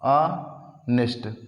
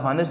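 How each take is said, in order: First: The word begins with a vowel sound. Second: The word begins with an h sound. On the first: The speaker calls it right. "इसको ऑनेस्ट पढ़ते हैं" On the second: The speaker calls it wrong. "इसको हानेस्ट नहीं पढ़ा जाता है"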